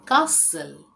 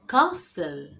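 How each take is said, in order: The two takes are said the same way.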